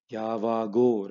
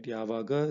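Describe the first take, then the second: First: "Yavago" ending on a drawn-out o; long final o. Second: Said in the usual way. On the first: Shown as a demonstration. Teacher contrasting it with when, "Yavago" with final o held long. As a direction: stretch the last o of "Yavago". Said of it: "when you make it".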